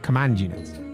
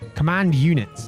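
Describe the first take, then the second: First: 'Command' is said as a noun describing units. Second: 'Command' is said as a verb giving an order. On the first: It names a type of unit. The speaker calls it wrong. "not command units" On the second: It is an order to direct the units. The speaker calls it right. "command the verb"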